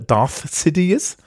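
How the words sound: The name is said with English sounds, including 'th'.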